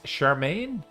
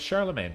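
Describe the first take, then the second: First: The name is said the non-anglicized way. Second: The name is said the anglicized English way. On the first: "it's pronounced Charmaine?" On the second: "Charlemagne is the anglicized pronunciation"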